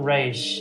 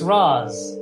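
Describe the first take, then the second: First: The name ends with an sh sound. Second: The name ends with an s sound. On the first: The speaker calls it wrong. "I don't care what the cartoon says, it's not Raish" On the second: The speaker calls it right. "it is Ra's"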